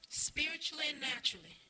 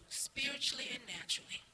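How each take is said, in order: No difference in how they are said.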